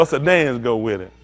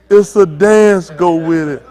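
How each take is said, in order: First: Said in the usual way. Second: Louder, slowed-down call to the crowd; loud crowd callout. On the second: Retold or imitated. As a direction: announce it slowly and loud to everyone. Tells crowd to dance along.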